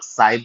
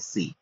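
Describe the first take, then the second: First: The vowel sounds like 'eye'. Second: The vowel sounds like 'ee'. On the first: The speaker calls it wrong. "बहुत सारे लोग साई बोलेंगे" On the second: The speaker calls it right. "इसका एक्चुअल उच्चारण है"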